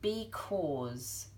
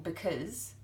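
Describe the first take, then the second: First: The first syllable has a full 'bee' vowel. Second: The first syllable has a weak, reduced vowel. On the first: "say it how it's spelt" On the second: "instead of saying because, which is might be how you say it"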